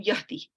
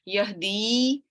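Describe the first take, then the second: First: The final vowel is cut short. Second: The final vowel is held long. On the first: The weak last letter was dropped to make it majzoom. "was changed to" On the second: This is the original form of the verb.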